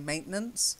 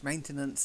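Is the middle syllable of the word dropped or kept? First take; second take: dropped; kept. First: The middle syllable is dropped from the word. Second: The middle syllable is kept in the word. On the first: The speaker calls it wrong. "some people might say maintenance, but it's not good English" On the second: The speaker calls it right. "Maintenance is better"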